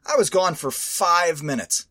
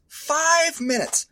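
First: Said in the usual way. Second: "Five minutes" stretched slow and pitched high; incredulous emphasis. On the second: Real, not acted. Repeating for emphasis.

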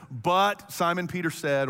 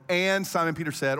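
First: But punched at the start; stress on But. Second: And punched at the start; stress on And. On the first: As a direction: lean on "But" as the joining word. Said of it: "verse thirty-six would normally read". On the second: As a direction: lean on "And" as the joining word. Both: Shown as a demonstration.

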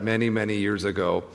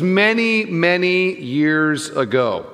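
First: Many, many years ago dropped low and softer; softer emphasis. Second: Many raised high then slowed years ago; stress on many. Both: Shown as a demonstration. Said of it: "Let me emphasize that".

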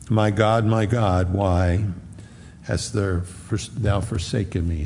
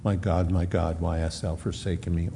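First: Said in the usual way. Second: Much softer and lower, reverent hush; hushed cry. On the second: Acted. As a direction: sink the quote into an awed hush. Climactic central cry, hushed.

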